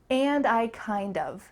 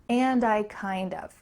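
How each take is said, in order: First: The phrase ends in a full 'kind of'. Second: The phrase ends in a full 'kind of'.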